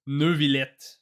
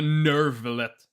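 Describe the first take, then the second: First: Drawn-out French-accented Neuvillette; attempted French accent, slow "Neu-vi-llette". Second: Nervillette with a hard "ner" at the start; rejected R pronunciation. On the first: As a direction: say Neuvillette as French as you can. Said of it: "French accent I could do". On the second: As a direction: say Nervillette with a plain English R, no French. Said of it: "Not a Nervillette". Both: Shown as a demonstration.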